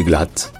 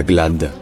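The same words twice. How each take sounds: First: "glatt" ending in a crisp t; final D said as t; German final devoicing. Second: "glad" ending in a voiced d; "glad" with a d, un-German; wrong voiced D. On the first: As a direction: close "glatt" on an unvoiced t sound. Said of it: "se prononce te". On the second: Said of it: "le D à la fin". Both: Shown as a demonstration.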